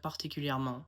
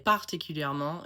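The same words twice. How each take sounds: First: Particulièrement with every syllable evenly weighted; even French stress. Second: Particulièrement with a strong English stress on one syllable; English-style word stress. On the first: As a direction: give particulièrement equal syllables, no punched one. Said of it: "instead of particulièrement". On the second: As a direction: punch one syllable of particulièrement, squash the rest. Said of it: "I will often say". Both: Shown as a demonstration.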